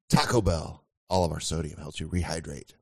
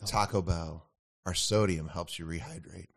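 First: It is said in a deeper, sexier voice. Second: It is said in a plain, normal voice.

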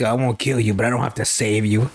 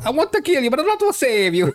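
First: It is said in an ordinary voice. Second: It is said in a Mario impression voice.

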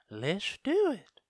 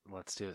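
First: It is said in a put-on voice. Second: It is said in her normal voice.

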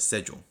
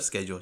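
First: The word begins with a 'sh' sound. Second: The word begins with a 'sk' sound. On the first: "That's how it should be. S-C-H. It's not ske. It's sh" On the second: "instead of schedule"

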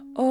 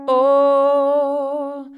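First: It is said in a high head voice. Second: It is said in a normal chest voice.

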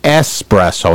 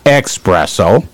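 First: The word begins with a plain 'es' sound. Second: The word begins with an 'ex' sound. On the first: The speaker calls it right. "it's espresso" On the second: The speaker calls it wrong. "not espresso. Yeah, there's no X in there"

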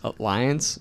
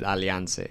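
First: The word has an English pronunciation. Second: The word has a Brazilian Portuguese pronunciation. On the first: "if you read it in English, it's pronounced Alliance" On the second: "the Brazilians pronounce it Alliance"

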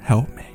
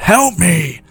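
First: It is said softly, pleading. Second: It is said loudly, roaring.

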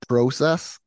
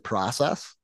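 First: It is said with a Canadian pronunciation. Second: It is said with an American pronunciation. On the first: "it's process" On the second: "they don't say process"

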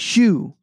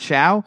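First: The name ends with an 'oo' sound. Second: The name ends with an 'ow' sound. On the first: The speaker calls it right. "He's Shu" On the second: The speaker calls it wrong. "that's not his name. Not Shao"

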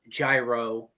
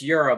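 First: The word begins with a 'j' sound. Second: The word begins with a 'y' sound. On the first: The speaker calls it wrong. "It's not Gyro" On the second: The speaker calls it right. "it's Euro, by the way"

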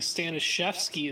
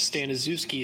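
First: The name is said with Polish pronunciation. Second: The name is said with English pronunciation. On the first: "the Polish way, correct way to say my name" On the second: "the English version"

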